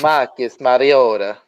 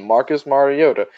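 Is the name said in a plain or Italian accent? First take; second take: Italian; plain. First: It is said in an Italian accent. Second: It is said in his plain voice.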